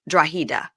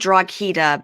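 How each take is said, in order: First: The middle consonant is an h sound. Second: The middle consonant is a hard g sound. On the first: This is how the name is really said. The speaker calls it right. "but it's Drahida" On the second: This is how the spelling looks. The speaker calls it wrong. "it looks like Draghita"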